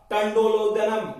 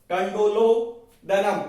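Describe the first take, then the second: First: Said in the usual way. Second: टंडोलोदनम spelled out slowly, each syllable clear, with the middle vowel औ; slow careful pronunciation. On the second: Shown as a demonstration. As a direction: sound out टंडोलोदनम slowly for students, stressing औ. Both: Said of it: "देखो औ ही बोला करो".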